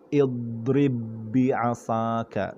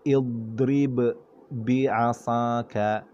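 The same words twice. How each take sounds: First: The two b sounds merge into one long b. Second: The first b is released separately with a bounce. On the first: The speaker calls it right. "bacaan yang betul ialah dengan kita mengidghamkan dia" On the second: The speaker calls it wrong. "Sekiranya kita tidak idgham, kita tidak masukkan ... kita akan beri qalqalah"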